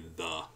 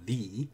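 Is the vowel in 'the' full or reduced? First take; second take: reduced; full. First: The word is unstressed with a schwa vowel. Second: The word is stressed with a full vowel. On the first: "generally, I'm just going to say the. I'm going to use that schwa sound" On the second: "I'm putting my stress on the"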